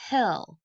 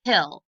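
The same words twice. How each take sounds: First: Said in the usual way. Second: Hill said much louder as one clapped beat; a punchy single-beat Hill; clapped syllable. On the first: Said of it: "Let's tap it out". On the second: Shown as a demonstration. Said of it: "Let's clap to see if hill is one syllable".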